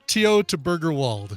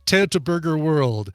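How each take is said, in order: First: The last word sounds like German 'Wald'. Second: The last word sounds like English 'world'. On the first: The speaker calls it right. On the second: The speaker calls it wrong.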